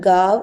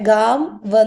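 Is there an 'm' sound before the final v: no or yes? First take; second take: no; yes. First: No 'm' sound is said before the final v. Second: An 'm' sound is said before the final v. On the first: The speaker calls it right. "ഗാവ് എന്നേ വായിക്കുള്ളൂ" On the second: The speaker calls it wrong. "ഗാം വ് എന്ന് വായിക്കില്ല"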